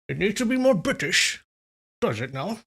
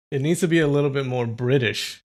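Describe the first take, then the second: First: High, swooping mock-British retort; Sean Connery impression. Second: Said in the usual way. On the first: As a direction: echo the critique in a hammed-up British impression. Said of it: "suggestions on the Sean Connery".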